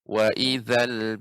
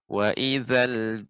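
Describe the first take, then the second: First: The middle consonant is made with tongue at teeth. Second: The middle consonant is made with tongue at teeth.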